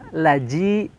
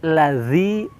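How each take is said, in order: First: The middle consonant sounds like a j. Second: The middle consonant sounds like a z. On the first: The speaker calls it wrong. "atau menjadi ja, laji, salah ya" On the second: The speaker calls it right. "Tapi lazi, za, ... mirip makhrajnya seperti huruf sa"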